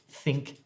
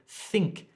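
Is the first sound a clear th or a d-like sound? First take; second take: clear th; clear th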